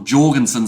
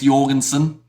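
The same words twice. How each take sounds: First: The name begins with a J sound. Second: The name begins with a Y sound. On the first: The speaker calls it right. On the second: The speaker calls it wrong.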